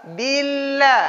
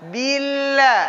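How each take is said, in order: No difference in how they are said.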